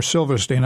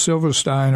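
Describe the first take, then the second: First: Silverstein with the last syllable rhyming with seen; alternative pronunciation. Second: Silverstein with the last syllable rhyming with line; first pronunciation variant. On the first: Guest unsure of author's name, offering Silverstein with "steen". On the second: Guest naming the memoir's author, Silverstein pronounced with "stine". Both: Real, not acted. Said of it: "not sure how you pronounce it".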